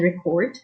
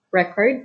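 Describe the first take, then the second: First: Record as a verb, reCORD; stress on second syllable. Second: Record as a noun, RECord; stress on first syllable. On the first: Teacher showing verb stress to learners, record stressed on second syllable. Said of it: "the verb is stressed on the second syllable". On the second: Teacher showing noun stress to learners, record stressed on first syllable. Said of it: "the noun is stressed on the first syllable". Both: Shown as a demonstration.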